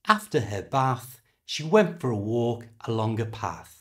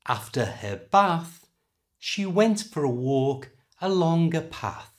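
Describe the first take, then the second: First: The sentence is said at normal conversational speed. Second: The sentence is said slowly and carefully.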